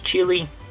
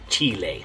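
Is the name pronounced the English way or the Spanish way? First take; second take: English; Spanish. First: The name is said with English vowel sounds. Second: The name is said with Spanish vowel sounds. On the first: "so in English" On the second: "In Spanish"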